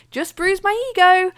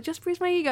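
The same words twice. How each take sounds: First: Breezy, higher brush-off; cheerfully pretending all is fine; cheery. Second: Lightly voiced, higher breezy quip; mock-casual dismissal to the onlookers; brushing it off. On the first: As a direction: shrug it off brightly with a raised voice. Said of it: "ran past them very cheerily saying". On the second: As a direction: toss it off casually, a little softer. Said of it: "then I did my bit to those people".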